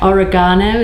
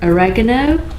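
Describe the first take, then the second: First: It is said in the British pronunciation. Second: It is said in a non-British pronunciation.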